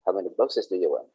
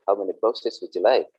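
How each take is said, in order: First: Quick, plain "do you want" question; teacher contrasts the ordinary way to ask, quick and plain; ordinary blunt ask. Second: Courteous "would you like" question at an even pace; teacher contrasts the polite way to ask, courteous. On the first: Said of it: "do you want is just ordinary". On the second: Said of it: "Would you like is very, very polite". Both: Shown as a demonstration.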